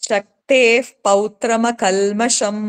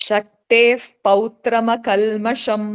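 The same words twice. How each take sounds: Both takes have the same delivery.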